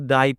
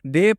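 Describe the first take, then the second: First: The vowel is an 'ai' glide sound. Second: The vowel is a plain 'e' sound. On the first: The speaker calls it wrong. "ना कि इसे दोस्तों आपको दाई पढ़ना है" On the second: The speaker calls it right. "D A Y डे पढ़ेंगे"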